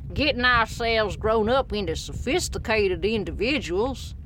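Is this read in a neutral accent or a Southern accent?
Southern. It is read in a Southern American accent.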